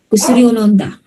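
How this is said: The pitch falls at the end. It answers a question. "So falling"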